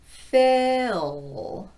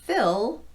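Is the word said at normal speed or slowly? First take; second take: slowly; normal. First: The word is said slowly, drawn out. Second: The word is said at normal speed.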